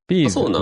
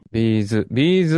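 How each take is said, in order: First: It is said with the Kanto pitch accent. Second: It is said with the Kansai pitch accent. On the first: "ビーズが関東じゃないの" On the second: "ビーズは多分関西だよ"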